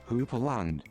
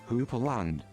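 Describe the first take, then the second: No difference in how they are said.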